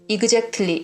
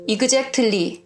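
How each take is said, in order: First: It is pronounced with a Korean-style accent. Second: The same.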